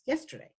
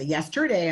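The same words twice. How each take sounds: First: The middle 'er' vowel is reduced and unstressed. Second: The middle 'er' vowel is full and stressed. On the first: The speaker calls it right. "it's yesterday. It's unstressed" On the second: The speaker calls it wrong. "We don't say yesterday I went"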